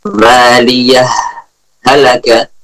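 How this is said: A brief stop separates the two words.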